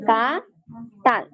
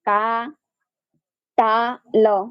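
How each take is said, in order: First: The word is split into two syllables. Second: The word is split into three pieces. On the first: The speaker calls it right. "একটা হচ্ছে কা, একটা হচ্ছে তাল" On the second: The speaker calls it wrong. "এভাবে বলা যাবে না"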